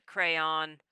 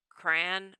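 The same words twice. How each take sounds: First: "crayon" said as CRAY-on; "crayon" with cray then an open on; two syllables. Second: "Crayon" squashed into one syllable, cran; "Crayon" with a single short A vowel. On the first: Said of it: "Two syllables". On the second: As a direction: say "Crayon" as cran, rhyming with ran. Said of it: "One syllable". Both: Shown as a demonstration.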